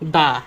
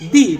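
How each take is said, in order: First: The word ends with a short 'uh' vowel. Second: The word ends with a long 'ee' vowel. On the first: The next word starts with a consonant. "কনসোনান্ট থাকলে, তাহলে এই consonant আগে বসবে দা" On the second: The next word starts with a vowel. "বাওয়েল দেখতে পাই ... তখন আমরা উচ্চারণ করব দি"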